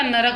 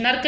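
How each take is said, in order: First: नरक in two syllables, "na-rak"; correct full r. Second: नर्क in one syllable, "nark"; wrong reph form. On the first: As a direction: put a vowel after r in नरक. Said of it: "नरक होता है". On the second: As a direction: run r into k in नर्क. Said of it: "नर्क नहीं होता". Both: Shown as a demonstration.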